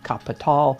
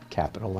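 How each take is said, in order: First: The word is said the German way. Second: The word is said the plain English way. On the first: It refers specifically to the book by Marx. "I pronounce it Kapital" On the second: It could mean any sense of the word. "he called it Capital"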